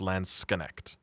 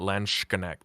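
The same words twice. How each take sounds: First: The middle sound is a plain 's' sound. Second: The middle sound is a 'sh' sound. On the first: The speaker calls it right. "It's actually s. it's Landsknecht" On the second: The speaker calls it wrong. "you don't say sh in the middle. So it's not Landsknecht"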